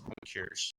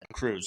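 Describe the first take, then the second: First: The word sounds like 'cures'. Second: The word sounds like 'cruise'. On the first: The speaker calls it wrong. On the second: The speaker calls it right.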